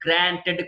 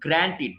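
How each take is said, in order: First: గ్రాంటెడ్ ending in "ted"; mistaken pronunciation. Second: గ్రాంటెడ్ ending in "tid"; short i in the end of గ్రాంటెడ్; correct pronunciation. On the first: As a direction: clear e in the end of గ్రాంటెడ్. (గ్రాంటెడ్ చివర "టెడ్") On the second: (గ్రాంటెడ్ చివర "టిడ్") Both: Shown as a demonstration. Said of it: "గ్రాంటెడ్ కాదండి".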